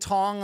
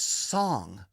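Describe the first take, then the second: First: The name begins with a T sound. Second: The name begins with an S sound. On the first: The speaker calls it wrong. "They were saying Tong on the broadcast" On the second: The speaker calls it right. "It's Song"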